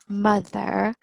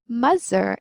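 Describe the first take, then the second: First: The middle consonant is a th sound. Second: The middle consonant is not a th sound. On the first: The speaker calls it right. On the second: The speaker calls it wrong.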